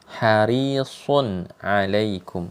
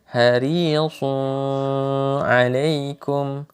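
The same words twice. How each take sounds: First: The n sound is pronounced clearly and separately. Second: The n sound is blended into the next word. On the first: The speaker calls it right. "bacaannya pasti izhar" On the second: The speaker calls it wrong. "jangan dibaca ... itu salah"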